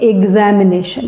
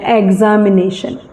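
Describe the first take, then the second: First: The first syllable is not said as 'eg'. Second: The first syllable is said as 'eg'. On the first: This follows the phonetic transcription. The speaker calls it right. "ये एग नहीं है" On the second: This is how most people read it. The speaker calls it wrong. "हम में से अधिकांश लोग इसको पढ़ते हैं"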